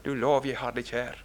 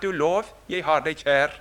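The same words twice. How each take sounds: First: "Du lov, jeg har deg kjær" again, lower and softer, leaning on "lov"; soft repeat. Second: "Du lov, jeg har deg kjær" stated out plainly, "Du" leading; declared quote. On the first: Preacher repeating the psalm line to himself, softly and tenderly. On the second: Preacher quoting the psalm to his flock, stated outright. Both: Shown as a demonstration.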